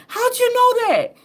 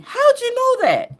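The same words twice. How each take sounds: First: High astonished question; amazed question. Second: High astonished question, voice changed; amazed question. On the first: People amazed at her knowing, high astonished question. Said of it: "People will say to me". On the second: People asking her in a heartbeat, high astonished question. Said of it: "People will say to me in a heartbeat". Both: Retold or imitated. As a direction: squeak it out in disbelief.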